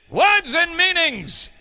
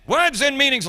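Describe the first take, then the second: First: Put-on slow, higher, grand English accent reveal of words and meanings; dramatic English accent announcement; English accent, drawn out. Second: Put-on quicker English accent repeat of Words and meanings; a crisp teacherly English accent confirmation; matter-of-fact English accent; English accent, brisk. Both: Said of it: "the English accent".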